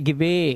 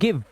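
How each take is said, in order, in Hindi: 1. अंतिम e स्वर की तरह बोला जाता है। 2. अंतिम e साइलेंट है। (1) "अब इसे गिवे नहीं पढ़ने" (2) "क्योंकि लास्ट का ई साइलेंट है"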